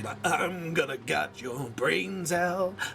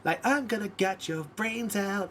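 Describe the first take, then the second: First: It is said in an angry, forceful tone. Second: It is said in a sweet, happy tone. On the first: "or you gotta go angry" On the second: "in a beautiful tone"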